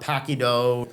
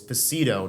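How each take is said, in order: First: The middle consonant is a hard K sound. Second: The middle consonant is a soft S sound. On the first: The speaker calls it wrong. "not Paquido" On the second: The speaker calls it right. "the name of your restaurant is Pacito"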